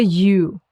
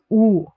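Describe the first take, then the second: First: Said in the usual way. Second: "U" said as "oo"; slow, pure "oo" for "U"; German U. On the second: Shown as a demonstration. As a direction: say "U" like the end of English you, no y. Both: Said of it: "It's pronounced like U".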